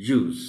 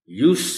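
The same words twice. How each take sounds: First: "use" as yooz, ending in Z; verb pronunciation. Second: "use" as yoos, ending in S, pitched up; noun pronunciation. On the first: Teacher modelling the verb for pupils, "use" as yooz. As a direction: say "use" with a buzzing z. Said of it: "and as verb". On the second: Teacher modelling the noun for pupils, "use" as yoos. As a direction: say "use" with a voiceless s. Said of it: "as noun". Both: Shown as a demonstration.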